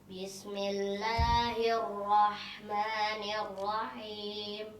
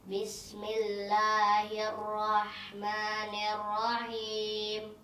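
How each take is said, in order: No difference in how they are said.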